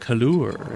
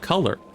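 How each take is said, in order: First: The word is said in a fancy altered form. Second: The word is said in its ordinary form. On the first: It is a valuable, fancy item. "it makes them sound fancier" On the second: It is just an ordinary, worthless thing. "It doesn't sound like a, a fancy item"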